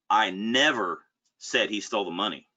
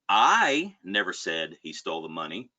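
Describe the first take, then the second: First: The stress falls on the word never. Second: The stress falls on the word I. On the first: It is a flat denial of ever saying it. "It's just an, an emphatic denial" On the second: Someone else may have said it. "meaning somebody else may have"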